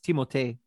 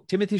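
First: The name is said with French sounds. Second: The name is said with English sounds. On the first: "actually it's Timothée" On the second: "So Timothy Chalamet"

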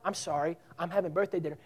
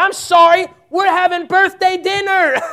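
First: It is said politely and gently. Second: It is said firmly, sounding fed up.

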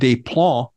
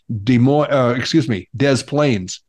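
First: The name is said in a French way. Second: The name is said in an American English way.

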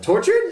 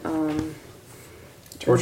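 First: The word is said with clear excitement. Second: The word is said without much excitement. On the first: The speaker calls it right. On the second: The speaker calls it wrong.

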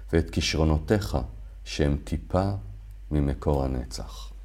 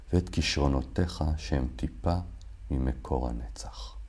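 The two takes are said the same way.

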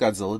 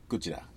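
First: The name is said with an English pronunciation. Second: The name is said with a Japanese pronunciation. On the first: "we call it Godzilla" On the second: "the actual pronunciation is something closer to"

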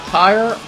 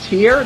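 First: The word rhymes with fire. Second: The word rhymes with ear. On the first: The speaker calls it wrong. "not tire" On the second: The speaker calls it right. "It is pronounced tear"

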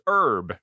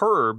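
First: The word begins with a silent H. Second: The word begins with a pronounced H sound. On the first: The speaker calls it right. "it's a silent H" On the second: The speaker calls it wrong. "it's not herb"

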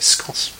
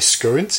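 First: It is said the northern English way. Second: It is said the southern English way.

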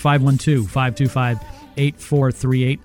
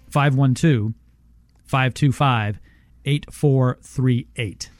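First: The number is said quickly. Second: The number is said slowly.

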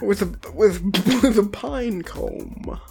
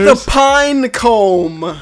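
First: It is said quietly, far from the microphone. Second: It is said louder, close to the microphone. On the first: The speaker calls it wrong. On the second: The speaker calls it right.

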